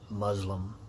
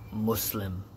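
First: The middle consonant is a z sound. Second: The middle consonant is a clear s sound. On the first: The speaker calls it wrong. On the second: The speaker calls it right.

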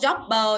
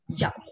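First: The final b is released loudly with an extra vowel. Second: The final b is small and barely released. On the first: The speaker calls it wrong. "không đọc job bờ nhá" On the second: The speaker calls it right. "nó nhỏ như thế"

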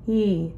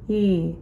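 The two takes are said the same way.

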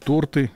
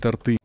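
First: The stress is on the first syllable. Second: The stress is on the second syllable. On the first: The speaker calls it right. "он произносит торты" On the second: The speaker calls it wrong. "а не торты"

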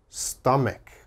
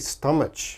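First: The middle consonant is a 'k' sound, as in 'kite'. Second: The middle consonant is a 'ch' sound, as in 'church'. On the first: The speaker calls it right. "It is always stomach. Stomach. Strong K sound here" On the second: The speaker calls it wrong. "my students often mispronounce. Same problem, there's a ch. So they say stomach"

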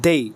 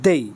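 First: The word ends in an 'ei' glide. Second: The word ends in an 'ei' glide.

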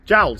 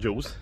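First: The vowel sounds like 'ow' in 'howl'. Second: The vowel sounds like 'oo' in 'rule'. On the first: The speaker calls it right. "I now know that it's called Jowls" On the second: The speaker calls it wrong. "when I've said that wrong"

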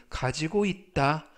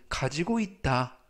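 No difference in how they are said.

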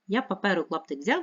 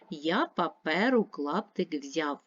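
First: It is read at a very fast pace. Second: It is read at a moderate pace. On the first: "Ще швидше" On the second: "Читаємо разом"

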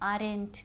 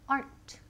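First: The word is stretched into two syllables. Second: The word is said as one short syllable. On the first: The speaker calls it wrong. "So don't say aren't" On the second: The speaker calls it right. "We want aren't. Una sílaba"

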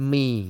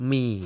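No difference in how they are said.

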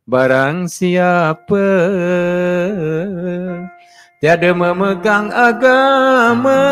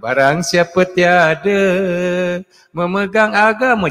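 First: The line flows on without a pause after tiada. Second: The line stops with a pause after tiada. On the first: The speaker calls it right. "sepatutnya dia begini ya" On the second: The speaker calls it wrong. "dia berhenti kat tiada"

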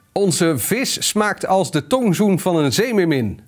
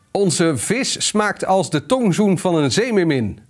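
No difference in how they are said.

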